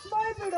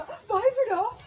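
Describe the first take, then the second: First: Said in the usual way. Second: High, slower rising demand; excited. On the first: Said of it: "ಬಾಯ್ ಬಿಡು ಅಲ್ಲ". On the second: Shown as a demonstration. Director shows the right take, excited rising voice. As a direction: push it up with excitement. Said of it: "ವಾಯ್ಸಲ್ಲಿ excitement ಬೇಕು".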